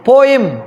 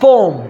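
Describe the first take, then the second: First: The word is said with two syllables. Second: The word is said with one syllable. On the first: "हम normally इसको pronounce करते पोएम" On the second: "actually this is पोम"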